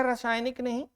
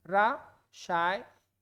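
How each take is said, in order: First: Said in the usual way. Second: रासायनिक stretched out very slowly and softly; slow demonstration. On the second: Shown as a demonstration. Teacher modelling correct spelling, very slow. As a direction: draw out रासायनिक syllable by syllable. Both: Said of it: "आपका रासायनिक होता है".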